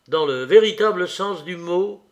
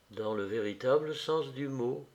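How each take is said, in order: First: "Dans le véritable sens du mot?" asked with a rising, probing tune, a bit louder; asking question. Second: "Dans le véritable sens du mot." stated softly and low, a quiet confirmation; firm answer. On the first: The dreamer presses Nastenka with a question, rising tune. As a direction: raise the line into a question on "véritable". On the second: Nastenka quietly confirms his words, soft low statement. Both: Acted. Question then echoed as answer.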